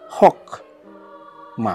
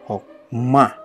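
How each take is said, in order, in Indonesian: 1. Tekanannya ada pada suku kata pertama. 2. Tekanannya ada pada suku kata terakhir. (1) "bukan hok ma" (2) "penekanannya itu pada hokma"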